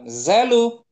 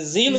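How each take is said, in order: First: The vowel after the z is 'a'. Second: The vowel after the z is 'i'. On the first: The speaker calls it right. "Nah, zalu" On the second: The speaker calls it wrong. "Bukan zilu"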